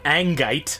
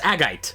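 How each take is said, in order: First: An N sound comes before the G. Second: No N sound comes before the G. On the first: The speaker calls it wrong. "It's not angite" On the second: The speaker calls it right. "it's agite"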